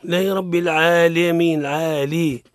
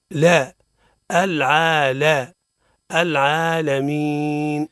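First: "العالمين" with la bent to "lee", "aaleemiin"; "العالي" with an imala on the l; tilted lam. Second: Slow "العالمين" with a clear a on the l; drawn-out "العالمين" with open "la", never "lee"; open lam. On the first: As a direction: wrongly lean the l of "العالمين" towards e. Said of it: "ما هيش ليه يا سيدي". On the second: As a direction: build up "لا", then "العالى", then "العالمين", deliberately. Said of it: "الحرف مفتوح". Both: Shown as a demonstration.

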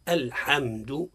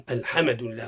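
First: Said in the usual way. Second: "الحمد" with a bounced meem, "alhemed"; wrong qalqala on meem. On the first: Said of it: "الصواب هو". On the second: Shown as a demonstration. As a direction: add an extra vowel bounce after the meem. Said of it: "هذا خطأ". (قلقلة الميم خطأ)

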